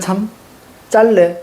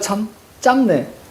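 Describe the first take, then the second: First: The last word is said as jjallae, with an L. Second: The last word is said as jjamne, with an M. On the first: The speaker calls it right. "이상하지 않아?" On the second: The speaker calls it wrong. "이게 훨씬 더 괜찮아 보이지만"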